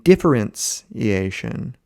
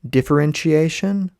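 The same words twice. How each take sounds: First: The consonant before '-iation' sounds like 's'. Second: The consonant before '-iation' sounds like 'sh'. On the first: This is a separate technical term spelled with a C. "with a C" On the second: This is the ordinary word spelled with a T. "with a T ... I do the C H sound"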